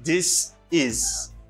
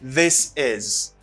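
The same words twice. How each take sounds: First: The two words are said separately, without linking. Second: The two words are linked with a z sound. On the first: The speaker calls it wrong. "Gen moun ki di this is" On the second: The speaker calls it right. "Men, mwen di this is"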